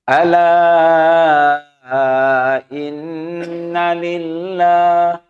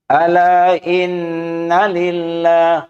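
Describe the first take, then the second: First: The long vowel is held for five counts. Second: The long vowel is held briefly, two counts. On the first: "Boleh lagi satu lima. Nah, banyak lagi" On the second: "pendek kan?"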